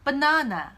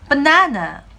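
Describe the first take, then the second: First: It is said in a British accent. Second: It is said in an American accent. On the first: "영국식으로는" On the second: "미국식으로는"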